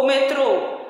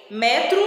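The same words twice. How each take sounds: First: "metrô" com força no TRÔ final; tônica no fim. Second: "metro" com força em MÉ; tônica no começo. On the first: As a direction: diga "metrô" como me-TRÔ, O fechado. ("metrô" oxítono, última sílaba marcada) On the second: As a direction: diga "metro" como MÉ-tru, final fraco. ("metro" paroxítono, com E aberto) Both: Shown as a demonstration. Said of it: "Observa bem o acento".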